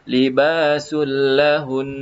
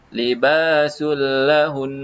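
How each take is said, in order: Both takes have the same delivery.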